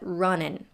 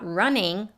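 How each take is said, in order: First: The word ends with a plain N sound. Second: The word ends with an NG sound. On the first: "with a short I sound, as in the word sit, and an N at the end" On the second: "not with an N G sound, not running"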